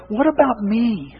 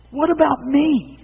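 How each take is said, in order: First: Slow, whiny mock of a selfish person. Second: The same complaint pitched higher and slower; higher whiny repeat. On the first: Preacher mimicking society's self-focus, mildly whiny. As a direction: drag it out like a spoiled complainer. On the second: Pretend. Preacher escalating his mock of self-focus, higher whine. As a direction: push the whine further up, like a pleading child. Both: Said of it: "society is bombarding us with".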